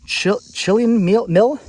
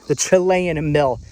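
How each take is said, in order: First: "Chilean" as CHILL-yun, halting, higher and questioning; unsure reading of Chilean. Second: "Chilean" as chi-LAY-un, slow and firm; corrected reading of Chilean. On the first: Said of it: "I can, I can read". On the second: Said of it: "Or Chilean. I can, I can read". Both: Real, not acted.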